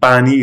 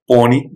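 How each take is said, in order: First: The vowel is said with a flat, empty mouth. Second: The vowel is said with a full, rounded mouth. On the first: "pani is empty mouth" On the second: "so it's more full mouth"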